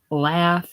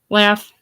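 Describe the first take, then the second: First: The vowel is a long, broad A. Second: The vowel is a short, flat A. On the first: It sounds like refined, cultivated speech. "Long A's and everything" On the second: It sounds like ordinary local speech. "instead of"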